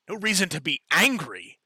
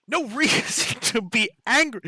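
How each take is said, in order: First: Loud, higher mocking repeat of the words; mocking echo. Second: Much higher and louder, laughing through it; laughing mockery. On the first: The human head mocks the adventurer's words, sneering. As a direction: throw the phrase back at her, sneering. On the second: The human head laughs off the adventurer's plea, mocking. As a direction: scoff at the phrase with a laugh. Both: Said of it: "the human head says".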